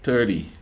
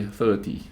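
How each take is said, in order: First: "thirty" with the T softened to a D; American soft T. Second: "thirty" with a clearly pronounced T; crisp T. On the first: Man imitating how Americans say "thirty", T as soft D. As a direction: say "thirty" like "thirdy", American style. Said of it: "'cause they say thirty". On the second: Grenadian man showing his own "thirty", T fully pronounced. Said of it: "when I say thirty". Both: Shown as a demonstration.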